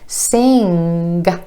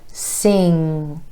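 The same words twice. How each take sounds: First: The ng ends with an added g sound. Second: The ng is held with no g sound. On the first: The speaker calls it wrong. "You don't want sing" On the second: The speaker calls it right. "you want sing"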